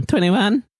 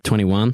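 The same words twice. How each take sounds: First: Twenty-one sung out much higher; high sing-song. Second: Said in the usual way. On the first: Real, not acted. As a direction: repeat Twenty-one in a high excited lilt. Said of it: "repeats the roll high". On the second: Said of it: "repeats the roll".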